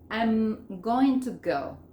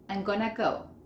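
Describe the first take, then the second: First: Each word is said fully and carefully. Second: The words run together in relaxed, reduced form.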